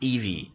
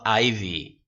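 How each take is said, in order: First: The name begins with an 'ee' sound. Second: The name begins with an 'eye' sound. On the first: The speaker calls it right. "I have to remind myself it's Evie" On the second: The speaker calls it wrong. "It's not Ivy"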